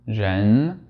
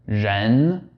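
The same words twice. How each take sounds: First: The first consonant is lighter and less buzzy. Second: The first consonant is a strong buzzing Z. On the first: "lightly reduce the pressure of the tongue on the roof of your mouth" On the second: "the very exaggerated Z sound"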